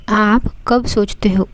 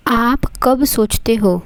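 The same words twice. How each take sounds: The two takes are said the same way.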